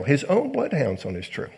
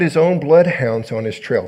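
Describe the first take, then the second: First: Softer repeat, pitch swooping on "bloodhounds"; marvelling aside. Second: Said in the usual way. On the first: Real, not acted.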